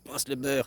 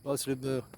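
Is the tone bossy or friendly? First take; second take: bossy; friendly. First: It is said in a bossy, ordering tone. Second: It is said in a mild, friendly tone.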